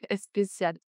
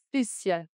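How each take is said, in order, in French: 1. Une voyelle supplémentaire est ajoutée avant le mot. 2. Le mot commence directement par le son s. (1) "elle dit est spécial" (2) "en français, on dit spécial. On n'a pas de est avant"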